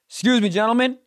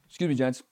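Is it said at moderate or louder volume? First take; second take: louder; moderate. First: It is said noticeably louder than before. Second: It is said at a moderate, fairly loud volume.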